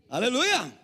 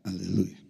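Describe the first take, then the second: First: It is said loudly, with fiery energy. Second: It is said flatly, with little energy.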